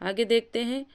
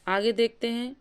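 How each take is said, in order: Both takes have the same delivery.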